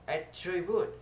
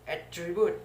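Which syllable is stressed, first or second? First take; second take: second; second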